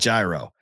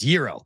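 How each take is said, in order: First: The word begins with a pronounced G sound. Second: The word begins without any G sound. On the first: The speaker calls it wrong. "it's not gyro" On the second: The speaker calls it right. "It's gyro. That's what it is"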